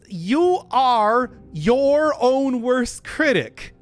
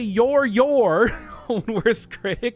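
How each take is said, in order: First: The words 'you are' are said in full. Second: The words 'you are' are contracted to 'you're'. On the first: The speaker calls it right. "autocorrect it into being something more clearly audible" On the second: The speaker calls it wrong. "it sounds strange"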